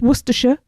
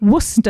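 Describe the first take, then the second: First: The word is said with more than two syllables. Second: The word is said with only two syllables. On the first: The speaker calls it wrong. "It's not Worcestershire" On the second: The speaker calls it right. "Two two syllables, Worcester. That's how we all say it"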